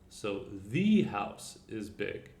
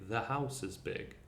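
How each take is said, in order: First: It is said slowly and carefully. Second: It is said in a natural, relaxed way.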